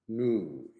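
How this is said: It is said with an American accent. "new in American"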